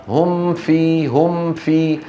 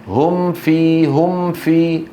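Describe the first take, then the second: The two takes are said the same way.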